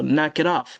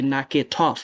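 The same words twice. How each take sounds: First: The T is pronounced as a soft flapped D. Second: The T is pronounced as a clear T sound. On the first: The speaker calls it right. "changing the T to a D because it's a flap D" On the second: The speaker calls it wrong. "you don't say"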